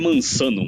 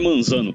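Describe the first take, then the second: First: The middle consonant sounds like an s. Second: The middle consonant sounds like a z. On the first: The speaker calls it right. "Eu cansei de falar que é Mansano" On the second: The speaker calls it wrong. "todo mundo erra o meu, que na verdade não é Manzano"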